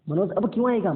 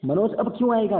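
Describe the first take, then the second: First: क्यों punched higher and louder; teacher stressing क्यों to show the negative sense; emphatic reading. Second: क्यों pushed high and loud, falling; teacher hammering क्यों for the class; stronger emphasis. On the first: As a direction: hit क्यों hard with a falling close. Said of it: "मतलब मनोज अब नहीं आएगा". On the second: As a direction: drive क्यों home, higher and louder. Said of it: "that means Manoj अब नहीं आएगा". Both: Shown as a demonstration.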